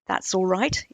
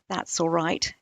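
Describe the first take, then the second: First: It is said with a questioning tune. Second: It is said as a flat statement. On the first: It asks whether things are fine. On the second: It confirms that things are fine.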